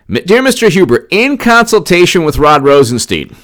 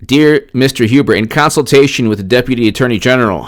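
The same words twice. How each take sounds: First: Affectionate send-up of a Southern attorney general; Jeff Sessions Southern accent. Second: Said in the usual way. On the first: Retold or imitated. Reading Sessions' letter aloud in a mild Southern accent. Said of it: "the accent's done with love". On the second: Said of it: "I'm gonna read you".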